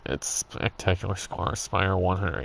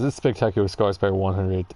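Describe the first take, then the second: First: It is said in a put-on cartoon character voice. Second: It is said in a normal speaking voice.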